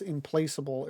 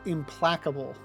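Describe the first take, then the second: First: The word is said as implaceable. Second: The word is said as implacable. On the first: The speaker calls it wrong. "I've mispronounced that as implaceable" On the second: The speaker calls it right. "That word is pronounced implacable"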